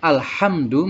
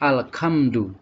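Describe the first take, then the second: First: The middle consonant is a breathy h. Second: The middle consonant is a k. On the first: The speaker calls it right. "seharusnya alhamdu" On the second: The speaker calls it wrong. "berubah menjadi ka ... tidak boleh"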